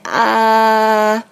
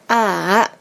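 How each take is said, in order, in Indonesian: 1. Nadanya tinggi dan datar. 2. Nadanya turun dulu lalu naik. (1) "yang pertamanya itu kan garis horizontal ya dari kiri ke kanan" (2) "yang ketiga kan tanda centang tuh"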